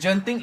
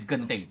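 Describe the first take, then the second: First: It is said with a Singaporean pronunciation. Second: It is said with a Malaysian pronunciation. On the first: The speaker calls it wrong. "the Singaporean way of saying it" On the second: The speaker calls it right. "The correct way is Genting"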